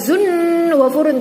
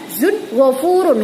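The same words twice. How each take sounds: First: The n is drawn out with a nasal hum. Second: The n is crisp, with no nasal hum. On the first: The speaker calls it wrong. "enggak boleh dibaca" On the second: The speaker calls it right. "Maka dibaca jelas"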